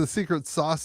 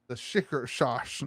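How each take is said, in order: First: The s sounds are pronounced clearly. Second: The s sounds turn into sh sounds. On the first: The speaker calls it wrong. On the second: The speaker calls it right.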